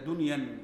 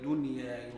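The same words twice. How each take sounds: First: The word ends with an added n sound. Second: The word ends in a plain vowel, no n. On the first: The speaker calls it wrong. "لا تقل فمن كانت هجرته إلى دنيا" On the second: The speaker calls it right. "لأنها غير مصروفة"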